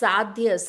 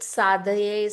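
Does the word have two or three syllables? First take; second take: two; three. First: The word is said with two syllables. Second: The word is said with three syllables. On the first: It is the true Sanskrit form. The speaker calls it right. "it's truly the Sanskrit is sadhya" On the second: It is a common but less authentic form. The speaker calls it wrong. "some people, I think, pronounce it sadhaye"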